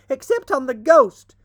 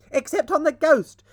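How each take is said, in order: First: Even louder high shriek, stress on ghost. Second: High, loud gleeful shriek. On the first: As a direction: top the first shout, hit ghost. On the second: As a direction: shriek it as a cheeky joke. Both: A narrator's reading. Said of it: "shrieked the twins".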